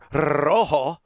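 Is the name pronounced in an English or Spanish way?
Spanish. The name is pronounced the Spanish way.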